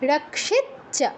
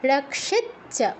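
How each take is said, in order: The two takes are said the same way.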